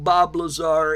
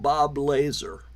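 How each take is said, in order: First: The surname is said in its usual way. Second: The surname sounds like the word laser. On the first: The name is said respectfully. The speaker calls it right. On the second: The name is mangled to belittle the person. The speaker calls it wrong.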